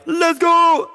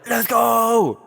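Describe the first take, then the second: First: It is a full, loud yell. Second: It is a strained yell kept at low volume. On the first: "I can't be like" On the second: "trying to yell without yelling"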